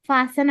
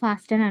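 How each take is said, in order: First: The word is said without a t sound. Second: The word is said with a t sound. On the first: The speaker calls it right. "అంటాము" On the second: The speaker calls it wrong. "అనకూడదు"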